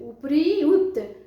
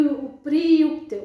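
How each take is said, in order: First: It is said slowly, broken into separate parts. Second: It is said slowly, broken into separate parts.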